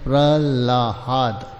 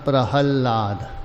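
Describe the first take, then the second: First: The l sound comes before the h sound. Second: The h sound comes before the l sound. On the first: The speaker calls it wrong. "कुछ प्रांत विशेष में प्रहलाद बोलते। ... ला पहले बोलते हैं, हा बाद में बोलते, ये गलत।" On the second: The speaker calls it right. "हकार पहले है लकार बाद में"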